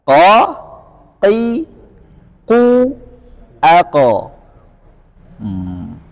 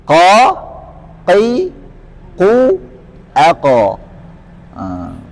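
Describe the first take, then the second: Both takes have the same delivery.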